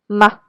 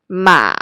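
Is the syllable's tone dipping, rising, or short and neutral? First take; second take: neutral; dipping. First: The pitch is mid-level and very short. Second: The pitch dips low and then rises again. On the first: "The neutral tone is somewhere in the middle and very short" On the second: "it starts in the middle and drops down, reach your lowest voice range, and goes back up again"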